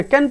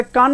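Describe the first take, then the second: First: कैन as "kaen" with front vowel; "ae" sound in कैन; correct reading. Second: कान as "kaan" with long aa; wrong reading. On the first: Teacher confirming the right reading, correctly pronounced. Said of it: "कैन पढ़ोगे". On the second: Teacher ruling out the wrong reading, mispronounced. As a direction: open back vowel in कान. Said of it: "इसे कान नहीं पढ़ोगे". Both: Shown as a demonstration.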